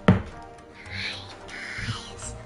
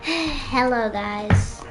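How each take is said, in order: First: It is said quietly. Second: It is said loudly.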